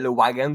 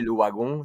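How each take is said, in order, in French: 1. C'est dit avec un accent qui sonne américain. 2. C'est dit avec un accent plus rond, qui sonne belge. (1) "les Américains c'est très le wagon" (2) "Les Belges c'est le wagon, c'est un peu plus rond"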